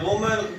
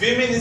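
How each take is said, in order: First: The first syllable has an 'o' vowel. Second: The first syllable has an 'i' vowel. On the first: The speaker calls it wrong. "वोमेन इसकी बिल्कुल गलत pronunciation है" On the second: The speaker calls it right. "सही इसका जो तलफ़ुज़ है वो है विमेन"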